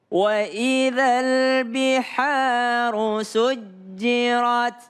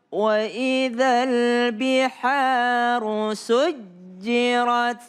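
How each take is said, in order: Both takes have the same delivery.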